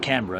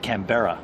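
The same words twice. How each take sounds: First: It is said with an Australian pronunciation. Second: It is said with a non-Australian pronunciation. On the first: "We say it Canberra" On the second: "you say Canberra"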